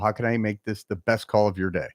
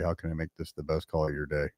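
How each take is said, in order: First: It is said warmly, with a smiling voice. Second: It is said flatly, without a smiling voice. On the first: "you say it with a smile on your face" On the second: "Say it again without smiling"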